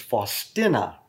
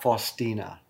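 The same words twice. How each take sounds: First: The name is said with Polish pronunciation. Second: The name is said with English pronunciation. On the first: The speaker calls it right. "her name is Faustina" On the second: The speaker calls it wrong. "not Faustina"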